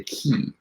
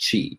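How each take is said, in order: First: The word begins with a k sound. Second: The word begins with a ch sound. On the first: "which is spelled K I" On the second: "he pronounced it chi"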